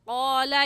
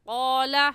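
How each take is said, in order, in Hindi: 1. इसकी शुरुआत गहरी पिछली q ध्वनि से होती है। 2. इसकी शुरुआत गहरी पिछली q ध्वनि से होती है।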